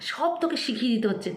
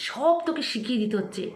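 Both takes have the same delivery.

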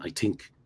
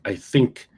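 First: "think" said as "tink", hard T for the TH. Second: Said in the usual way. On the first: Shown as a demonstration. Mimicking how Irish people get characterized, "think" pronounced "tink". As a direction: say "think" with a plain T at the start, "tink". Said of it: "people might characterize Irish people saying". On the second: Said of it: "which people might characterize Irish people saying".

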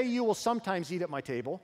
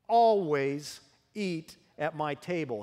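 First: Will lifted, sometimes said lightly in passing; the wrong version, will rising, quicker; contrast take on will. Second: ALWAYS drawn out slowly with a falling tune; stress on always. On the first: Pastor voicing what the king did not say, lighter. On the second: Pastor stressing the king's promise, slow emphatic always. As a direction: lean hard on ALWAYS, slow and deliberate. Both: Shown as a demonstration. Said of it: "He didn't say".

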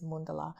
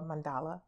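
First: "mundala" with first vowel as in "sun", stressed first; Sanskrit pronunciation. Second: "mandala" with "man" first and stress on "DAL"; common English pronunciation. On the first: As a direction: say "mundala" as MUN-duh-la. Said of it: "the pronunciation in Sanskrit". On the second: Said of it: "as everyone says". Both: Shown as a demonstration.

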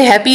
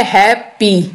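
First: Said in the usual way. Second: "happy" slowly as two separate beats; split into syllables. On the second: Shown as a demonstration. Teacher giving a two-syllable example, "happy" split in two. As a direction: break "happy" into हैप and पी. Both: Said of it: "दो syllable है".

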